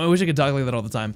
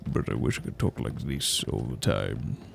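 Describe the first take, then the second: First: It is said in the speaker's natural voice. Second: It is said in a different, put-on voice.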